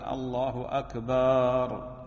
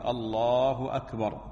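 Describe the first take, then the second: First: The vowel after the b in akbar is drawn out long. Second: Both words are said short with no drawn-out vowel. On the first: The word akbar comes to mean drum. The speaker calls it wrong. "ومن الخطأ أيضا مد باء أكبر" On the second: It means God is greater than everything. The speaker calls it right. "من السنة الحذف وعدم التمطيط في التكبير"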